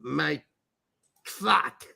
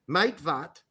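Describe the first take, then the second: First: It is pronounced the American way, as two words. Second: It is pronounced the German way, as one name. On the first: It sounds like a crude English phrase. "if you're American and you're reading this German's name" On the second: It sounds like a German surname. "if you pronounce it in German"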